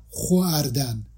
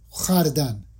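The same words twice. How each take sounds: First: خواردن split slowly as "kho-ardan"; drawn-out counterexample "kho-ar-dan" for خواردن; mistaken pronunciation. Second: خردن said as one-glide "khʷardan"; rounded kh fused with a short "a" in خردن; old pronunciation. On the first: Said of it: "نه خواردن". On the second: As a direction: demonstrate old-style "khʷar-dan" for خردن. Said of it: "اگر با تلفظ قدیم بخوایم تلفظ کنیم". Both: Shown as a demonstration.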